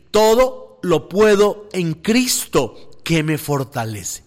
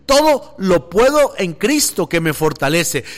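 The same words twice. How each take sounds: First: Slow, deliberate "Todo lo puedo en Cristo que me fortalece"; first, measured reading of the verse. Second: "Todo lo puedo en Cristo que me fortalece" repeated with more force; stronger repeat. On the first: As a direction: lay out each word of the verse slowly. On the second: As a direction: proclaim the verse again with conviction. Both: Shown as a demonstration. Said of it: "Otra vez".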